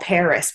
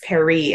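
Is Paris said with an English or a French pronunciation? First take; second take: English; French. First: The name is said with an English pronunciation. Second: The name is said with a French pronunciation. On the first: The foreign name is blended into English. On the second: The foreign name is kept in its original form.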